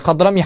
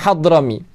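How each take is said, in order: First: The name begins with a harsh scraping kh sound. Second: The name begins with a breathy h sound. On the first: The speaker calls it wrong. "bukan Khadrami" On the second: The speaker calls it right.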